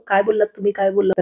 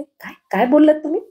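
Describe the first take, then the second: First: काय बोललात तुम्ही, काय बोललात? echoed back at near-normal pitch, mocking. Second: काय, काय बोललात तुम्ही? pitched much higher, बोललात rising in disbelief; shocked demand. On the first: Husband mimicking his wife's shocked question to mock her. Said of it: "सगळं ऐकून परत नाटक नको करू". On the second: Acted. Wife sitting up in bed, shocked by her husband's grumble. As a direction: jolt awake and fire the question.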